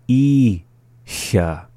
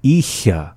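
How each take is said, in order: First: "Icha" split, long "I", pause, then "cha"; slowly. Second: Said in the usual way. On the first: Shown as a demonstration. Teacher giving word examples, "Icha" said slowly in syllables. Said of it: "the second time slowly". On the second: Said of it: "up to speed".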